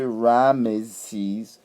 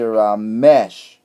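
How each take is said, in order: First: The name ends with an s sound. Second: The name ends with an sh sound. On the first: The speaker calls it wrong. "We don't say Ramesses" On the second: The speaker calls it right. "we usually pronounce it as mesh"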